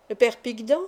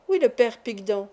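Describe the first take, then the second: First: "Picdan" lifted in a questioning rise; questioning echo. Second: "Oui" first, then "Picdan" settled without a questioning rise; confirming. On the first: Girl checking which old professor is meant, rising question on "Picdan". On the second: Pupil confirming the professor's name, "Picdan" said as a settled answer. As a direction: confirm it, "Picdan" closing as a statement. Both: Acted.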